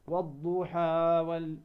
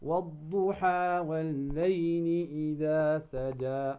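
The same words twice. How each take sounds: First: والضحى وال- chanted slowly with the "haa" overextended; wrong demo of والضحى, last vowel dragged; overlong madd. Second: والضحى والليل إذا سجى recited slowly with each final aa held two counts; correct two-count madd. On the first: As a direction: overdo the final aa of والضحى. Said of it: "لا، خطأ". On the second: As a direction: chant والضحى evenly, not overstretching the "haa". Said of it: "فقط بمقدار ماذا؟ حركتين". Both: Shown as a demonstration.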